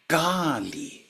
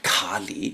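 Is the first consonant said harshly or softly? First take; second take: softly; harshly. First: The first consonant is soft and gentle. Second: The first consonant is hard and harsh. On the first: The speaker calls it right. "try to say this softly" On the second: The speaker calls it wrong. "not Kali, as you always say"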